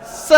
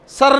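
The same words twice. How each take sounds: First: स with no r sound at the end; स, r left silent. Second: सर with a clear r at the end; सर with the r, the wrong way; r sounded. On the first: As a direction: say स and drop the r. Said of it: "ये क्या होता है?". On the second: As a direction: say सर pronouncing the final r. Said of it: "सर नहीं होता". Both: Shown as a demonstration.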